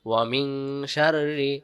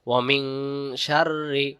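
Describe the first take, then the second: The two takes are said the same way.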